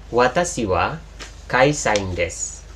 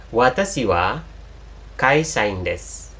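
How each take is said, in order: No difference in how they are said.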